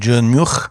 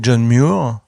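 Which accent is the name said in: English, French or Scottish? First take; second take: Scottish; English. First: The name is said with a Scottish rolled R. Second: The name is said with an English pronunciation. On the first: "en écossais ... avec ce roulement de R d'Écosse" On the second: "en anglais, ça fait John Muir"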